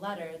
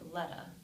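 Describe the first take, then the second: First: The final R is clearly pronounced. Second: The final R is dropped entirely. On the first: "instead of saying letter" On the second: "delete the postvocalic R"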